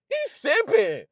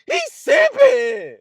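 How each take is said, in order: First: Said in the usual way. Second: High, slow, hammed-up yell of He's simping; mock shout. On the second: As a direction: call it out like a rowdy onlooker. Mocking hype shout.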